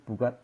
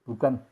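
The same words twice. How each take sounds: The two takes are said the same way.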